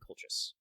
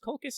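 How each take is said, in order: First: The C sounds are said soft. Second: The C sounds are said hard, like K. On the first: "It might be Colchis" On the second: "I think it's pronounced Colchis"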